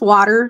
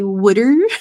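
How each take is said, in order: First: It is said with a standard American accent. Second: It is said with a Philadelphia accent.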